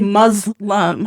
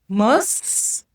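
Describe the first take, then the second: First: The middle consonant is a buzzing z sound. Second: The middle consonant is a hissing s sound. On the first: The speaker calls it wrong. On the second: The speaker calls it right. "It's an S"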